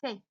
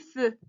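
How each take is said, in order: First: The vowel is an open 'è' sound. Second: The vowel is a rounded 'eu' sound. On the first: This is how the spelling would suggest reading it. The speaker calls it wrong. "normalement, on doit, on doit lire fait" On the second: This is how it is actually read. The speaker calls it right. "Mais ça se lit feu"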